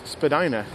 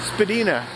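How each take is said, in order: First: The name is said the common modern way. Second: The name is said the older original way. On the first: This is how most people say it today. "now the common pronunciation of the word is just Spadina" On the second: This is how the name was first said. "they still use the original pronunciation"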